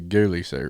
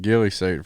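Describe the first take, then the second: First: The first vowel sounds like the oo in ghoul. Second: The first vowel sounds like the i in hill. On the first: The speaker calls it right. "It's really ghoulie suit" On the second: The speaker calls it wrong. "I've been pronouncing it wrong. I've been pronouncing it ghillie suit"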